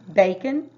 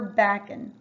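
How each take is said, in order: First: The first vowel is a long A sound. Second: The first vowel is a short A sound. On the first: "it would be bacon, the first one. So that A is going to say its name" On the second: "or is it going to be a short A?"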